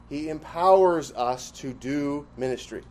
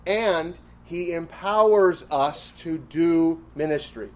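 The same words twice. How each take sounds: First: Said in the usual way. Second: Slow, deliberate, leaning on "empowers"; stress on empowers. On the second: Shown as a demonstration. To the class, "empowers" drawn out for emphasis. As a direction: stretch out "empowers" and press it.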